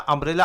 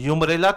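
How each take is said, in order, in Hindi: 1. यह शब्द 'uh' ध्वनि से शुरू होता है। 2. यह शब्द 'yoo' ध्वनि से शुरू होता है। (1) "अम्ब्रेला आ से बोलते हैं ना" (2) "यूमरेला तो यू से नहीं बोलते ना"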